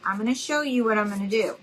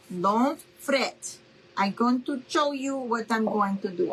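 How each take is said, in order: First: Said in the usual way. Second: Lightly put-on mom's accent, carefully worded; imitating mom's accented English. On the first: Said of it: "trying to do my mom's accent". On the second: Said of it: "I'm trying to do my mom's accent".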